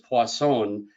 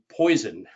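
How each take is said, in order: First: It is pronounced with a French-style sound. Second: It is pronounced like the English word poison. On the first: "I'm giving it kind of a French presentation" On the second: "some people might say poison"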